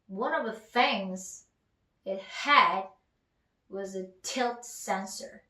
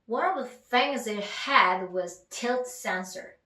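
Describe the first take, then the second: First: It is said slowly, in chunks. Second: It is said faster, run together.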